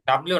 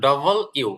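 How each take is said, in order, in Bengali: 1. এটি একটি মিশ্রিত শব্দ হিসেবে বলা হয়, 'dablyu'। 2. এটি দুটি শব্দ হিসেবে বলা হয়, 'double you'। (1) "ডাব্লিউ না"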